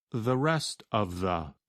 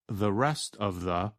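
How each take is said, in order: Both takes have the same delivery.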